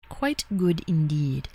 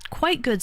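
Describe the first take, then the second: First: Low, slow mock-refined "quite good indeed"; a hint of a toff; mock posh aside. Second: Said in the usual way. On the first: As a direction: savor it like a snooty connoisseur.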